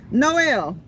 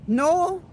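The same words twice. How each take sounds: First: Noel said as no-el with the e sounded; no-EL, the second syllable kept; Noel in three syllables. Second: Noel clipped to one long noel; nole, run together; Noel in two syllables. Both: Shown as a demonstration. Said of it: "Is it Noel or Noel?".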